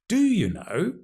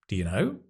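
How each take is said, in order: First: The stress falls on the word do. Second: The stress falls on the word know. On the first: The speaker doubts that the listener really knows. "Emphasizing the do, strong form" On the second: It is a plain question. "do and you will be unstressed"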